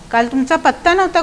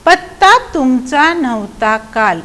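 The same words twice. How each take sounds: First: Said in the usual way. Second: Slow, stretched verse rhythm; poem recitation. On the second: Shown as a demonstration. Teacher reciting the question put to the frog, slow recitation. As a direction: recite it in drawn-out beats. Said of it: "बेडकाला पण विचारलं गेलं".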